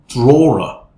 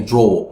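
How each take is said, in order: First: Draw ends with an r sound. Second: Draw ends without an r sound. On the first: The speaker calls it right. "you say drawer" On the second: The speaker calls it wrong. "you don't say draw"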